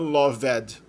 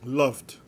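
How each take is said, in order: First: The word is said with two syllables. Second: The word is said with one syllable. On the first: The speaker calls it wrong. "Não tem duas sílabas não, não é loved" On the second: The speaker calls it right. "O V é seguido diretamente pelo D"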